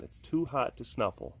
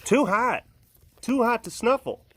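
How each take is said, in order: First: Said in the usual way. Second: Pet's voice. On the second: Pretend. Voicing the pet.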